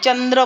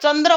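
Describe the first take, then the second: First: The first consonant is palatal, with a y-glide. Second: The first consonant is dental, with no y-glide. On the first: The speaker calls it right. "चंद्र म्हणतो" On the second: The speaker calls it wrong. "चंद्र म्हणत नाही"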